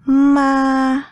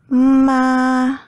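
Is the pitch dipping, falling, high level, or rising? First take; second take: high level; high level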